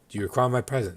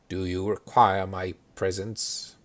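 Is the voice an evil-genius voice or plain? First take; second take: plain; evil genius. First: It is said in a plain, ordinary voice. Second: It sounds like a sinister evil-genius voice.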